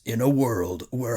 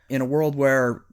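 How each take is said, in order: First: It is said in a deep, dramatic announcer voice. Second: It is said in a plain, everyday speaking voice.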